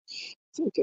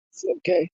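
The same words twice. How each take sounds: First: Whisper. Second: Said in the usual way. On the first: Real, not acted. Repeated as a whisper.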